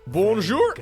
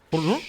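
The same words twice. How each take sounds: First: It is said slowly and carefully, fully pronounced. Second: It is said very quickly and clipped.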